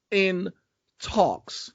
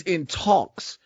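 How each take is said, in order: First: "In" and "talks." split by a pause, each set apart; stress on IN TALKS. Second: Said in the usual way. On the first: Real, not acted. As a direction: say "In talks." word by word, higher and deliberate. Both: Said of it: "I need to stress that word".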